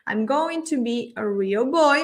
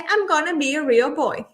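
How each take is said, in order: First: Every syllable of 'going to' is said fully. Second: 'Going to' is shortened to a quick 'gonna'. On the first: "me lleva unos cuatro segundos" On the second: "da la mitad de tiempo"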